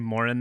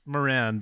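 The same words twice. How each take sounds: First: The name is pronounced the way Irish people say it. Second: The name is pronounced the usual American way. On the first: "They say Moran there" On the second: "It's Moran"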